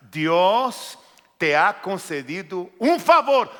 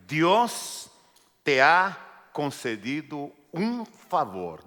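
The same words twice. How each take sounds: First: "Dios te ha concedido un favor" louder, every word pressed; emphatic repeat. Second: Said in the usual way. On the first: Shown as a demonstration. Preacher repeating the key phrase, emphatic. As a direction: hammer the phrase so they remember it. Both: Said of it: "No se olvide de esta frase".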